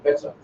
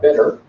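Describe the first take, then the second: First: It is said in a non-American accent. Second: It is said in an American accent. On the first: "I would say better" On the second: "because she's American. She says better"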